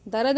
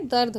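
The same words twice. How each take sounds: First: दर्द as da-rad, a vowel slipped between r and d; wrong pronunciation. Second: दर्द as dard, r and d joined; correct pronunciation. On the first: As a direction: stretch दर्द into two syllables. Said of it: "दर्द नहीं होता है". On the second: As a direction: close दर्द into one syllable. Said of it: "दर्द होता है". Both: Shown as a demonstration.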